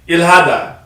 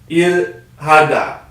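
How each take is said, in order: First: The word is said quickly. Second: The word is said slowly. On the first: "she'll say it fast" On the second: "and then slow"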